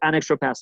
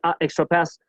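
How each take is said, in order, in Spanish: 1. Un sonido n une el artículo suavemente con 'extra'. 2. Un artículo de vocal sola se corta antes de 'extra'. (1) "yo puedo ir un poco más rápido en mi pronunciación" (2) "para no tener dos vocales abiertas juntas... Que suena raro"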